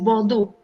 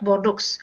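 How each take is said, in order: First: The name is said with French pronunciation. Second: The name is said with non-French pronunciation. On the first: The speaker calls it right. "with the French accent, we say Bordeaux" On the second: The speaker calls it wrong. "not Bordeaux"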